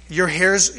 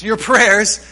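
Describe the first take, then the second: First: Says "hairs" in place of "prayers"; a playful fumble on "hairs"; slip of the tongue. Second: "prayers" said louder to fix the slip; a firmer retake of "prayers"; self-correction. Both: Shown as a demonstration.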